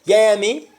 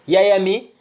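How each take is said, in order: Both takes have the same delivery.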